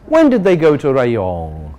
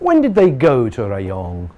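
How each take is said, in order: First: The stress falls on the word Rayong. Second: The stress falls on the word when. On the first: A simple question about when the trip happened. "the simple question" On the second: The asker wants to know the day of travel. "now we want to know the day of travel"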